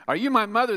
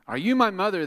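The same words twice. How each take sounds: First: Very high, loud chirpy plea; baby bird voice. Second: High, loud little bird asking; baby bird voice. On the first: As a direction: squeak it like a tiny lost bird. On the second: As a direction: squeak it out like a lost baby bird. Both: Acted.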